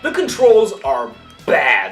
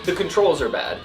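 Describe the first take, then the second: First: It is said with heavy, drawn-out emphasis. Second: It is said flatly, without special emphasis. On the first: The controls are extremely bad. The speaker calls it right. "You say" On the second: The controls are merely poor. The speaker calls it wrong. "you don't say"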